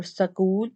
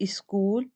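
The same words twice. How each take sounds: First: School split as sa-kool; epenthetic vowel after S. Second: School with a vowel in front, is-kool; epenthetic E. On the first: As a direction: put a short vowel between S and K in school. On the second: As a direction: add an E before the S in school. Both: Shown as a demonstration. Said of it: "E and Sa sound are introduced".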